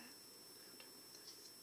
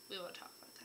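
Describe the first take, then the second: First: Slow secretive whisper. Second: Said in the usual way. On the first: Shown as a demonstration.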